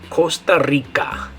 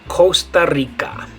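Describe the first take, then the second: The two takes are said the same way.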